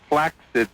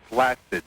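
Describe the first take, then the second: First: The double c is said as ks. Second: The double c is said as s. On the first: The speaker calls it right. "it is pronounced that way" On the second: The speaker calls it wrong. "not flaccid"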